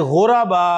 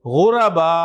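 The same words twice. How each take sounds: First: गुरबा stretched with an extra vowel, गु-र-बा; गुरबा said as three syllables, ghu-ra-ba; wrong pronunciation. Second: गुरबा said tight in two syllables, ghur-ba; गुरबा with no extra vowel, ghur-ba; correct pronunciation. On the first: (गुरबा को तीन हिस्सों में, गु-र-बा) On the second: (गुरबा सही, दो हिस्सों में: ग़ुर-बा) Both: Shown as a demonstration. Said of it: "गुरबा नहीं".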